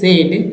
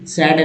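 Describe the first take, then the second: First: The vowel is the mid 'bed' vowel. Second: The vowel is the open 'cat' vowel. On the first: The speaker calls it right. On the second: The speaker calls it wrong.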